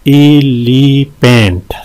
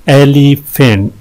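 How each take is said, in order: First: "एलिफेंट" slowly, in three drawn-out beats; syllable breakdown. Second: Said in the usual way. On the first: Shown as a demonstration. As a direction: stretch each syllable of "एलिफेंट". ("एलिफेंट" तीन हिस्सों में खींचकर) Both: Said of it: "तीन है इसमें".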